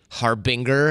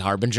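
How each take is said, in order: First: The g is hard, as in go. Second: The g is soft, as in gem. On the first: It helps someone spell the word. "I'll say harbinger" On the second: It is the everyday way of saying it. "if I say it normally"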